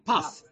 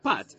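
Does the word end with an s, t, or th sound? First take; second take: th; t. First: The word ends with a th sound. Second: The word ends with a t sound. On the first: "If you pronounce it Temani, it would be puff" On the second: "If you pronounce it Sfaradit, or like an Israeli would, you pronounce it pat"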